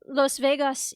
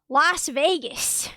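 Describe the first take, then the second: First: It is said with a Spanish-style pronunciation. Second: It is said with an everyday English pronunciation. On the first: This is not how people usually say it. "We don't say Las Vegas either" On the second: This is how people usually say it. "We say Las Vegas"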